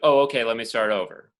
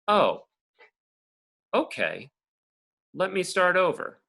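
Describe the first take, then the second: First: It is said run together without pauses. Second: It is said with pauses between parts.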